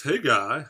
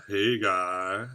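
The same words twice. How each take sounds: First: Said in the usual way. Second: Lightly put-on voice. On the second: Streamer repeating a viewer's greeting, lightly put-on voice. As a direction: repeat the hello in a lightly silly voice.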